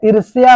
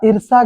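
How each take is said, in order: First: ईर्ष्या said as eer-shya, with sh and y together; the correct ईर्ष्या, with a clear y glide before aa; correct form. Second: ईर्षा said as eer-sha, with no y sound; the wrong ईर्षा, sh going straight into aa; wrong form. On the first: Teacher giving students the right spelling, ईर्ष्या. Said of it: "ईर्ष्या होता है". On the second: Teacher reading out the misspelt word, ईर्षा. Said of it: "ईर्षा गलत है". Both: Shown as a demonstration.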